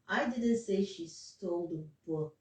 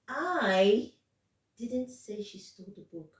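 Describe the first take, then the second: First: The word book carries the main stress. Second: The word I carries the main stress. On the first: She stole something else, not the book. "that's what I was stressing on" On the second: Someone else said it. "Now the stress is on. I'm not the one that said it"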